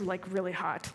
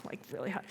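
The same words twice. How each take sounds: First: Said in the usual way. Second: Really hot dropped to a near hush; softer, fading echo of really hot; trailing off quietly. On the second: Shown as a demonstration. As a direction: let the repeat fade away, much softer.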